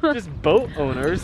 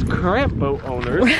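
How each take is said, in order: First: "Just boat owners" spelled out slowly; slow, deliberate reading. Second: "current" picked out from "boat owners"; stress on current. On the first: Reading the sign as a loophole, slow and deliberate. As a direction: draw out "boat owners", with no qualifier. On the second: Arguing over a boat owners' sign, stressing "current". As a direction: lean on "current" as the missing word. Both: Real, not acted. Joking about wording of sign.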